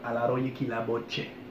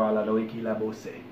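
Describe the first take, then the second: First: The last word begins with a ch sound. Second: The last word begins with an s sound. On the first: The speaker calls it right. "you're gonna hear che" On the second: The speaker calls it wrong.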